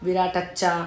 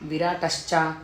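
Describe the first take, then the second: First: The final cluster is a doubled ch. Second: The final cluster has an sh before ch. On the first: The speaker calls it wrong. "అందరు ఏం చేస్తున్నారు" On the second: The speaker calls it right. "షా కింద చావొత్తులు"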